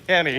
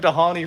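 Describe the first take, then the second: First: The name is said without an H sound. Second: The name is said with an H sound. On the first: The speaker calls it right. "the H is silent" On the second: The speaker calls it wrong. "we've been calling him Dahani for like ten years"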